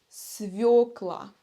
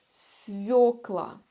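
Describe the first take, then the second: No difference in how they are said.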